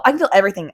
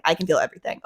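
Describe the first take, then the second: First: Said in the usual way. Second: Softer, defeated repeat of everything; quieter repeat. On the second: Retold or imitated. Sensory-overwhelmed girl murmurs to herself, softer and sinking. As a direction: let it sink, drop to a murmur. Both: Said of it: "I'm just like".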